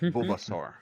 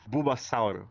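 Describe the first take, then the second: First: It has an English accent with a final r. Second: It has a Brazilian accent with a final vowel. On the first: "instead of" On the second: "to say it with the Brazilian accent, it would be"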